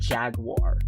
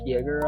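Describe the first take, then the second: First: It sounds like 'jag-wahr', with a w sound. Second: It sounds like 'jay-ger', with no w sound. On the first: The speaker calls it right. "I think that is pronounced Clan Smoke Jaguar" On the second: The speaker calls it wrong. "I know I pronounce it different"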